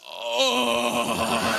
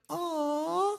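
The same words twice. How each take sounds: First: It is said in a coarse, rough voice. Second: It is said in a soft, smooth voice.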